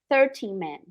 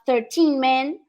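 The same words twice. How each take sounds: First: The stress is on the first syllable of thirteen. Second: The stress is on the last syllable of thirteen. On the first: "no inglês você vai ouvir com muito mais frequência thirteen men" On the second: "em vez de falar thirteen men"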